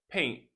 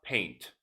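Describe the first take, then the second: First: "paint" ending on N, the final T left off; dropped T. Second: "paint" with a crisp released final T; fully sounded T. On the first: Teacher has learners notice "paint" said without its T. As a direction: drop the T so "paint" ends like "pain". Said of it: "Notice I said paint". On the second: Teacher contrasts for learners, "paint" with a sounded T. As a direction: pop the T at the end of "paint". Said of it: "and not paint". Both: Shown as a demonstration.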